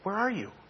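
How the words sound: It is said in a gentle, inviting tone.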